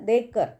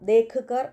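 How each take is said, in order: First: The two words are said fast, run together. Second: The two words are said slowly and separately. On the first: The speaker calls it right. "സ്പീഡിൽ പറയുമ്പം" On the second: The speaker calls it wrong. "നമ്മൾ പറയുമ്പം ദേഖ് കർ എന്നല്ല പറയുന്നത്"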